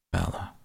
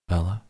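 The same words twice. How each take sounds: First: Low, soft sigh of the name; relieved. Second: Name called with a rising question. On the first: Rescuer right beside the sick girl, relieved. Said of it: "relieved now". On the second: Voice from the distance to the sick girl, questioning call. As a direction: call out uncertainly. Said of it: "A different voice called from the distance". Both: A narrator's reading.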